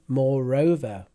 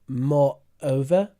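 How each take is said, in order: First: An R sound links the two parts smoothly. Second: The two parts are separated without an R sound. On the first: The speaker calls it right. "We put the R in" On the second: The speaker calls it wrong. "I noticed you said"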